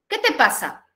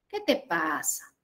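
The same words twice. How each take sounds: First: The question is asked sharply and confrontationally. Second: The question is asked softly and sympathetically. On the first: The speaker is annoyed with the listener. "Cambió el tono, ¿no? Ya no es un tono suave" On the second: The speaker feels sorry for the listener. "Mi tono de voz, ¿sí? Es suave, ¿sí? Es condescendiente, es un poco apenada"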